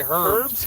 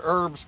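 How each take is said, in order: First: "herbs" said slowly with a clear h sound; mock "herbs" with h, slow and drawn; "herbs" with a spoken h. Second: Said in the usual way. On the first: Shown as a demonstration. Teasing Sandy with a slow "herbs" said with h. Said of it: "We don't say herbs". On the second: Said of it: "We say the word herbs correctly".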